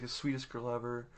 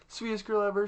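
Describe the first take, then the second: First: Said in the usual way. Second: High-pitched mock-sweet girl voice; put-on sugary high voice; sweet girl act. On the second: Same words in mimicked girl voice.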